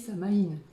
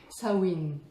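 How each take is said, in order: First: The word is said with a French pronunciation. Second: The word is said with a Gaelic pronunciation. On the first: "à la bonne française, ça se dit Samaïn" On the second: "en gaélique, ça se dit, a priori, ça se dit Sawin"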